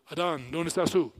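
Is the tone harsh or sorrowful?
harsh. It is said in a harsh, demanding tone. An authority is interrogating a suspect. The speaker calls it wrong. "si lo lees como si Dios fuera un policía"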